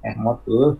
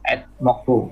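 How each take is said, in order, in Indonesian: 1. Dibaca sebagai dua kata terpisah. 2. Dibaca sebagai satu kata yang disambung. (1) "Ahmad, Bo. Enggak mau tuh" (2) "Dalam kalimat ini harus dibaca dengan ini. Jadi etmokbu"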